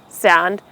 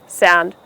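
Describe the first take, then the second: No difference in how they are said.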